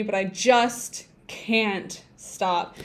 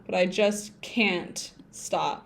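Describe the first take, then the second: First: "just", "can't" and "stop" each given weight, slowly; slow down and punch "just can't stop"; stress on last three words. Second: "can't" hit hardest, the line slow and soft; most stress on CAN'T. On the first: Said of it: "We're gonna put more stress on these three words". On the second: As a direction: lean on "can't" above the rest. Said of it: "I'd put the most stress on can't". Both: Shown as a demonstration.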